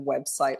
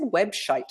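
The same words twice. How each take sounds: First: The middle sound is 's', as in site. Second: The middle sound is 'sh', as in shite. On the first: It is the intended word. The speaker calls it right. "instead of website" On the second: It was an embarrassing slip of the tongue. The speaker calls it wrong. "I said website"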